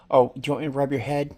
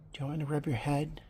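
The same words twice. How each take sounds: First: Said in the usual way. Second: Soft fast unvoiced whisper. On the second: Real, not acted. Owner whispering the head-rub offer to her cat, whisper. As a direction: hush it so the cat stays calm.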